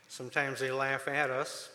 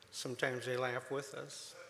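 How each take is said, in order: First: "at" stressed and held, a little louder. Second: "with" stressed, said at normal level. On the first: Telling the church that the inmates laugh, stress on "at". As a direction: lean on "at" to set it against "with". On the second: Telling the church that the inmates laugh, stress on "with". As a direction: lean on "with" as the kinder answer. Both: Shown as a demonstration. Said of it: "contrast at/with".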